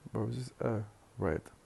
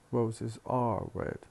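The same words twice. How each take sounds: First: The word 'are' is reduced to a schwa. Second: The word 'are' is pronounced in full form. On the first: It is the usual everyday way of saying it. The speaker calls it right. "just schwa" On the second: It sounds artificial and pretentious. The speaker calls it wrong. "this sounds a bit artificial and uh, pretentious"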